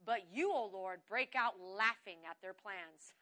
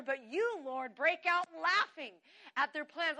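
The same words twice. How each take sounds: First: Said in the usual way. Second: Slow, delighted proclamation; emphatic scripture reading. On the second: Shown as a demonstration. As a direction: relish the verse, stretching LAUGHING. Relished repeat of loved verse.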